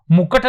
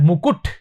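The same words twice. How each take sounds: First: मुकुट said "mu-kat", with an a; wrong pronunciation. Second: मुकुट said "mu-kut", u in both syllables; correct pronunciation. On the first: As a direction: show the mistake, मुकुट as "mukkat". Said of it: "नहीं होता है". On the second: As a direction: teach मुकुट ending in a short "kut". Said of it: "बिल्कुल सही है". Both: Shown as a demonstration.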